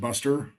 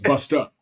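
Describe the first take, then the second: First: The name ends with an 'er' sound. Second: The name ends with an open 'uh' sound. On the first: The speaker calls it wrong. "like I would pronounce it Buster" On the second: The speaker calls it right. "but it's bust up"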